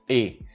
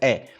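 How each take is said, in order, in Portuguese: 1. A vogal é fechada, como o e do espanhol. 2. A vogal é aberta, como o é com acento. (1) "tem outras partes do Brasil que falam letra E, como em espanhol" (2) "Eu falo E, como se tivesse acentuado"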